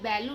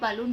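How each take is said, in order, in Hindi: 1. पहला स्वर 'cat' के 'a' जैसा बोला जाता है। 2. पहला स्वर 'cup' के 'u' जैसा बोला जाता है। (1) "बैलून नहीं" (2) "बलून पढ़ना है"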